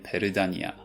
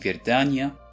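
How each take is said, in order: First: It is said in a Korean accent. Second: It is said in a Russian accent.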